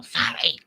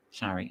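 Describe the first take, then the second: First: High, strained mocking yell. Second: Small, soft mock apology; imitating that lady. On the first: Yelling back at the lady in the store, mocking yell. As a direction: throw her word back in a yell. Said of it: "and then I'd yell". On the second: Lady apologizing across the store, soft imitation. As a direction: imitate a lady's quiet passing sorry. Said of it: "I hear that lady".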